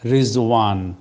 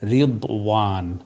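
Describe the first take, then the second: First: The middle consonant is a z sound. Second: The middle consonant is a d-like sound. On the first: "তো সেটা উর্দুতে চলমান" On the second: "আরবি উচ্চারণ হচ্ছে রিদওয়ান"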